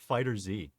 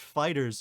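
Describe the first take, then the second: First: The Z is said as a separate letter. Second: The word ends in a plain s sound. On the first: The speaker calls it wrong. "not Fighter Z" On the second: The speaker calls it right. "it's pronounced fighters"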